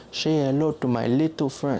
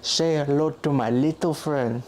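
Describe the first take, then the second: First: Italian accent imitation. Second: Slow, deliberate movie quote; a light take on Tony Montana; Tony Montana line. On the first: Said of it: "they say it like". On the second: Retold or imitated. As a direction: drawl out the famous line slowly. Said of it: "he's the one that goes".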